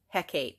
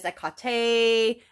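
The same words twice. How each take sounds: First: The name is said as English spelling suggests. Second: The name is said with its Greek pronunciation. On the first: This is how the name was first read as a teenager. "I thought it was Hecate. That's how I pronounced it" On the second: This is how the name is said in Greek. "in the Greek, it is Hecate"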